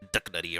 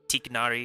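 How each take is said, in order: First: The name begins with a D sound, like Doug. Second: The name begins with a T sound, like Tigger. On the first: This is close to the original Arabic name. "the Arabic pronunciation is very close. It's like Duck Nutty" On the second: This is another pronunciation heard for the name. "a different pronunciation for him, like Tiknari"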